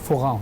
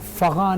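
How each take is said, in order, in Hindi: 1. पहला स्वर 'u' की ध्वनि है। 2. पहला स्वर 'a' की ध्वनि है। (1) "लफ्ज़ फ़ुगा होता है" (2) "फ़गा नहीं होता"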